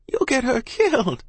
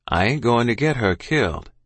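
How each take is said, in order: First: High, alarmed mother's cry. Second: Calm, steady father's reply. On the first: Mother fears for her child, crying out. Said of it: "Ma cried". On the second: Father reassures mother about the child, calm. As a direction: answer the alarm evenly. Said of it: "he said in his calm voice". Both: A narrator's reading.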